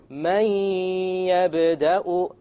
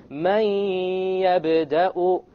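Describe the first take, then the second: The two takes are said the same way.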